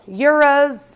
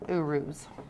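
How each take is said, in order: First: The word begins with a 'yoo' sound. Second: The word begins with an 'oo' sound. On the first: This is the common popular pronunciation. The speaker calls it wrong. "a lot of people say it" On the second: This is the proper pronunciation. The speaker calls it right. "it's actually supposed to be pronounced"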